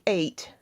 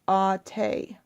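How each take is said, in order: First: It is said as one syllable, like 'eight'. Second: It is said as two syllables, ah-teh. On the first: The speaker calls it wrong. "in English that looks like eight" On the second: The speaker calls it right. "but in Tagalog it's ate"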